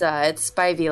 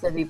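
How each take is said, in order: First: The first syllable sounds like 'spy'. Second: The first syllable is not said like 'spy'. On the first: The speaker calls it right. "but it's Spivey, like Spidey senses" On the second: The speaker calls it wrong. "Everyone says Spivey"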